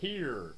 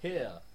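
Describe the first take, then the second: First: The final r sound is clearly pronounced. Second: The final r sound is dropped. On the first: "American people go R and here" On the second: "The southern people who don't say the R"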